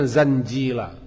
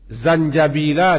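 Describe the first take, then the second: First: A middle syllable of the word is dropped. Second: Every syllable of the word is pronounced. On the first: The speaker calls it wrong. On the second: The speaker calls it right.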